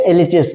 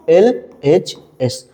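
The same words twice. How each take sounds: First: Said in the usual way. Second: "LHS" as L, H, S with pauses, lower; letter by letter. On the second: Shown as a demonstration. Teacher answers own question for class, letter by letter. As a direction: slowly dictate each letter on its own.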